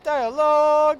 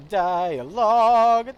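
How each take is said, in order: First: Much higher and louder, a mock-pained cry on the word; exasperated squeal. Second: A high, very slow rising whine on the word; exasperated groan. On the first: Streamer mock-wailing at repeated game dialogue, high louder squeal. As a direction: wail it like the dialogue is torture. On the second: Streamer groaning at game dialogue, slow exasperated whine. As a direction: stretch it out like you cannot take it anymore. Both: Real, not acted.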